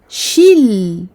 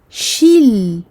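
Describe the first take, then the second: Both takes have the same delivery.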